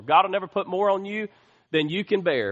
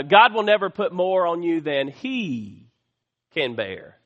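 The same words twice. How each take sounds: First: Said in the usual way. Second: He leaned on before can bear; stress on he. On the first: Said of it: "I'm here to tell you today that's not true". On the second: Shown as a demonstration. Preacher correcting a common saying, stressing he. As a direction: lean on he to show it is God who carries it. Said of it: "Not more than we can bear, but more than he".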